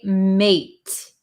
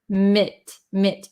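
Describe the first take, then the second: First: The syllable has a full 'ay' vowel. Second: The syllable has a short, reduced vowel. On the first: The speaker calls it wrong. "We don't say mate" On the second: The speaker calls it right. "legitimate, mit"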